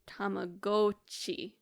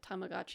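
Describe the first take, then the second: First: It is said with the original Japanese sounds. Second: It is said with the usual English sounds. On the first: The speaker calls it right. "So it'd be Tamagotchi" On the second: The speaker calls it wrong. "which we're saying wrong by the way"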